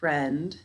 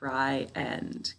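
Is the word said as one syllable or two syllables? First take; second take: one syllable; two syllables. First: It is said as one syllable. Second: It is said as two separate syllables. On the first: "even though we only hear one" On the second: "we say it like it's two syllables"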